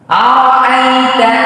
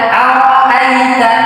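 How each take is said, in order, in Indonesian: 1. Vokalnya bunyi a terbuka. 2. Vokalnya bunyi a terbuka.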